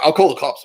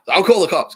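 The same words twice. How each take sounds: First: Louder, higher hammed-up threat; mock threat. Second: Louder, higher hammed-up threat, pushed further; mock threat. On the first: Imitating the housemate threatening police, mock shout. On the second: Repeating the housemate's threat to call police, mock shout. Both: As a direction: yell it like a tantrum.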